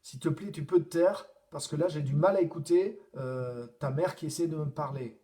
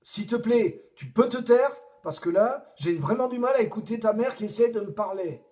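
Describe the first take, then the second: First: It is said in a somewhat annoyed tone. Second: It is said in a very annoyed tone.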